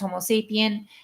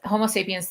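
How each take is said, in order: First: The last word ends without an s sound. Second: The last word ends with an s sound. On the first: The speaker calls it wrong. "not using the S at sapiens" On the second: The speaker calls it right. "that's why you're hearing me try and correct myself"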